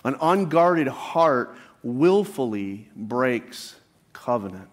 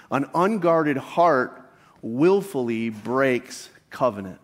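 First: Each word laid down slowly; slow repeated emphasis. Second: Slow emphatic statement. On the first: Pastor repeating the key point slowly to the congregation. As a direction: say it again slowly so it sinks in. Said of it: "Let me say that again". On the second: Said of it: "the key point could simply be stated as this". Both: Shown as a demonstration.

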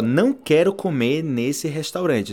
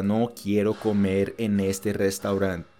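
First: Slow demonstration. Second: Low, evenly measured Spanish; word by word, lower and level; slow comparison. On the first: Teacher showing an easy sentence, slowly enunciated. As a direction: spell it out slowly for learners. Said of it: "Então, olha só". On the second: Teacher comparing Spanish with Portuguese, slow and level. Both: Shown as a demonstration.

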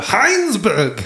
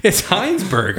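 First: Heinsberg said high in a hammed-up German accent; exaggerated German accent on Heinsberg; mock German accent. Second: Said in the usual way. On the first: Shown as a demonstration. Host says the town in a mock German accent. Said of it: "in a very racist German accent". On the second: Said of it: "I had to say it in".

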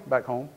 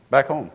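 First: "Back home." asked with a rising tune, softer; "Back home." lifted at the end like a question; "Back home." tentative, as if unsure. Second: "Back home." said firmly with a falling tune; "Back home." stated with conviction; firm answer. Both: Shown as a demonstration.

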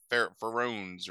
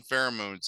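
First: "pherones", with the middle syllable of pheromones dropped; botched word "pherones", two syllables; mispronounced pheromones. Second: Said in the usual way. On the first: Shown as a demonstration. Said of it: "they call 'em, like". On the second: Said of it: "they don't call 'em pheromones".

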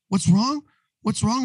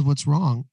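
First: Higher, exasperated mock outburst; retold explosion. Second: Said in the usual way. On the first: Husband snapping back at his worried wife, mock outburst. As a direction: throw her question back at her, pitched up. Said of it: "I just explode". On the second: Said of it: "by the third time she says".

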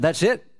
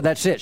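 First: "That's it?" rising at the end as a question. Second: "That's it." falling at the end as a statement; matter-of-fact answer. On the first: Tenant checking with landlady after praying, questioning "That's it?". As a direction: ask "That's it?" with a lifted, doubting end. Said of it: "I said". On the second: Landlady confirming the prayer is done, settled "That's it.". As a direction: close "That's it." firmly with a dropping tune. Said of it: "She said". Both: Retold or imitated.

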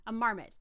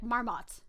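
First: "marmot" with a weak, unstressed second vowel, like "MAR-mut"; own pronunciation. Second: "Marmot" with a full open "ah" in the second syllable; very hard ah. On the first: Shown as a demonstration. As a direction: say "marmot" ending in a reduced "mut". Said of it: "is what I would say". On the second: Retold or imitated. Imitating the actor's way, "Marmot" ending in a hard "aht". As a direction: say "Marmot" as "MAR-maht". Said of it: "He says with a very hard ah".

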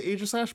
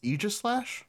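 First: AEGISLASH starting with long A as in "age"; former pronunciation. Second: AEGISLASH starting with long E as in "eagle"; reported official pronunciation. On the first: Recalling how they used to say it, long-A "Aegislash". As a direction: say "Aegislash" as AY-jis-lash. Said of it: "I used to say Aegislash". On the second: Correcting with what they heard, long-E "Aegislash". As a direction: say "Aegislash" as EE-jis-lash. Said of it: "I heard it was actually pronounced". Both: Shown as a demonstration.

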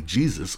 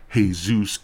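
First: "Jesus" as JEE-zus; English pronunciation. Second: "Jesus" as hay-SOOS; Spanish pronunciation. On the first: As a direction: pronounce "Jesus" the English way, J at the front. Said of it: "A K A Jesus". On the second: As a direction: pronounce "Jesus" the Spanish way, H at the front. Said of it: "or should I say". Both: Shown as a demonstration.

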